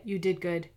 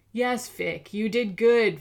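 First: Reassuring. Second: Sneering, louder mock praise; villain mocks the captive; mocking hiss. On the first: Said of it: "She gave him a reassuring look". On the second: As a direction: twist "good" into a taunt. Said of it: "Fiddler hissed". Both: A narrator's reading.

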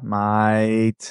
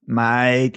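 First: Deeper, broader Australian mate; low, drawn-out Aussie mate; Australian accent. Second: Put-on light Australian accent on mate; a hint of an Aussie mate. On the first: Retold or imitated. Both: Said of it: "like my Australian accent".

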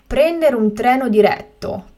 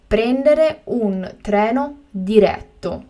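First: Said in the usual way. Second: Slow and carefully spaced; slow, clear repetition. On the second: Shown as a demonstration. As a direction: say it again slowly for learners. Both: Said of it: "teacher repeats the word twice".

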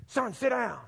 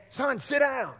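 First: Higher, firm second warning from the father; the dad telling his son a second time; lightly voiced father, losing patience; stern dad, repeated. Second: Higher, firm fatherly order; a hint of a stern father calling to the back seat; stern dad. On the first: Dad repeats order, boy ignores. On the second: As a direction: play the dad ordering his boy to sit down. Dad tells bouncing boy sit.

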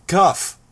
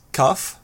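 First: Sharp loud call of her name; raised voice. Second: Said in the usual way. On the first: Acted. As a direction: snap her name out loudly. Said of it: "Tecton raised his voice". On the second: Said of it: "I asked".

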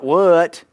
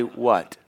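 First: "what" stretched, higher and louder; mock the twangy "what"; wrong drawled what. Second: "what" short and even, one syllable; correct what. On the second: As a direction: model a one-beat "what". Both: Shown as a demonstration.

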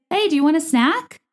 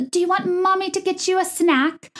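First: Said in the usual way. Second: High, cooing sing-song mom; mock mommy voice. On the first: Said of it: "you say". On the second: Podcaster mocking reality TV moms offering snacks, syrupy mommy voice. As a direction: gush it in a high-pitched baby-talk put-on. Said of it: "people don't talk like that".

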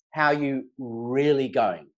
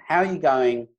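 First: Slow, gentle, really asking; slow down and mean the really; sincere follow-up. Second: Said in the usual way. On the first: Shown as a demonstration. To a shopkeeper, asking again, slow and sincere. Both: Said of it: "the power of the second question".

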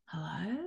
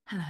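First: Soft, groggy hello; sleepy. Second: Said in the usual way. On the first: Acted. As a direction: answer the phone half asleep. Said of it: "very, very, um, sleepily going". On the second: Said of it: "And I went".

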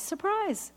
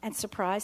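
First: Sing-song surprise, pitched much higher; mock surprise. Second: Said in the usual way. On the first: Shown as a demonstration. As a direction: throw "surprise" up high, teasing.

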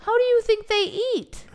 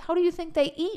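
First: Exasperated. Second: Said in the usual way. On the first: Real, not acted. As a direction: throw the question up in disbelief. Exasperated repeat of her point.

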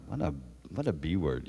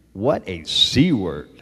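First: Muttered insult. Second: Slow, louder, pointed insult; said so she hears. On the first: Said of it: "I listen to this all the time, like". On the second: [name] insults Janice Dickinson out loud so she can hear it, slow and pointed. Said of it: "I say where she can hear me". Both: Retold or imitated.

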